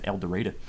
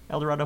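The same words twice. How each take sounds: First: The name is pronounced the local Arkansas way. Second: The name is pronounced the usual standard way.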